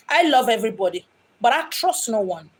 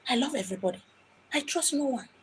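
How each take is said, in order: First: Said in the usual way. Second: The same line again, much softer, almost under the breath; quiet repeat. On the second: Shown as a demonstration. The medium repeats her motto to the listeners much softer. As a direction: drop the volume right down for the echo.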